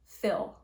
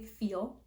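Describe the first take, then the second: First: The vowel is a short 'i' sound. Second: The vowel is a long 'ee' sound. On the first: "Whitney kind of says fill" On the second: "for me I speak standard Canadian English, so I say feel"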